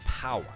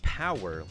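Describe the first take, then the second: First: It is said in a British accent. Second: It is said in an American accent. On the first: "they would say" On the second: "like you say in American English"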